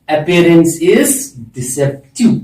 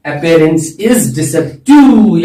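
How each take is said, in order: First: Said in the usual way. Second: Appearance is deceptive said very slowly, each word spaced; stretched teacher emphasis on Appearance is deceptive; slow, deliberate repeat. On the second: Shown as a demonstration. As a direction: spell the phrase out slowly for the class to repeat. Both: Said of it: "क्या बोलते हैं?".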